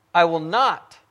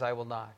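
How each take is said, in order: First: "I will not" with a firm, raised "not"; stress on NOT. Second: Said in the usual way. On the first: Acted. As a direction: land hard on "not". Emphatic scripture reading, then points it out.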